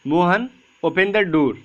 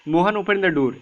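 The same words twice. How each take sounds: First: "Mohan open the door" read slowly with a break after "Mohan"; pause after the comma. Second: "Mohan open the door" run together in one breath; no pause. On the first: Teacher reading "Mohan open the door" slowly with a break for the comma. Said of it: "हम इस तरीके से पढ़ेंगे". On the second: Teacher demonstrating the wrong reading, "Mohan open the door" without a pause. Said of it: "ऐसे नहीं पढ़ते हैं". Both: Shown as a demonstration.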